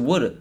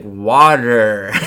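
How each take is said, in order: First: The word is said in a Philadelphia accent. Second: The word is said in a Californian accent. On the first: "because I grew up saying woulda" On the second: "Like in that Californian SNL"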